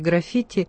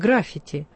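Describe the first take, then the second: First: The stress is on the second syllable. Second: The stress is on the first syllable. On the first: The speaker calls it right. "ударение здесь на втором слоге" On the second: The speaker calls it wrong. "нередко неправильно ставят ударение, говорят «граффити»"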